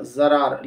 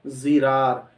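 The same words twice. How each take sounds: First: ज़रार as za-raar, with a; common mispronunciation. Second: ज़िरार as zi-raar, with i; correct pronunciation. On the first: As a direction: say ज़रार with short a after z. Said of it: "ये सही तलफ़्फ़ुज़ नहीं है". (ज़रार, ज़्वाद पर ज़बर के साथ) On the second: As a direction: say ज़िरार with short i after z. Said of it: "सही तलफ़्फ़ुज़ है". (ज़िरार, ज़्वाद के नीचे ज़ेर) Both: Shown as a demonstration.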